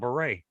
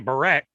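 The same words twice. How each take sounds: First: It is said with a French pronunciation. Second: It is said with an English pronunciation. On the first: The speaker calls it right. "but it's Val Barret" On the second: The speaker calls it wrong. "I'll say Barret"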